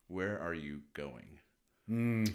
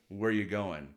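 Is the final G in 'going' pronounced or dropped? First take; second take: pronounced; dropped. First: The word going ends with a full G sound. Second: The word going ends without the G sound. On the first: The speaker is being firm and serious. "sometimes you do want to pronounce the whole word" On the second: The speaker is asking casually. "Because you've already tried"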